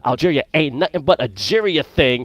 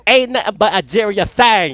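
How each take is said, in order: First: It is said flatly, with little emphasis. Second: It is said emphatically, with strong emphasis.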